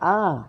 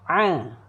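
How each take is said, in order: First: The vowel is made in the mouth. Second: The vowel is pressed from the throat. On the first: The speaker calls it wrong. "Kalau bunyi dalam mulut bunyi dia a" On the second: The speaker calls it right. "Bunyi halqum"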